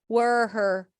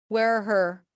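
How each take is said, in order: The two takes are said the same way.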